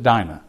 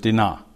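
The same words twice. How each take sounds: First: The name is said with an English pronunciation. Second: The name is said with a Hebrew pronunciation. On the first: "We pronounce it Dinah" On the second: "but in Hebrew it's Dinah"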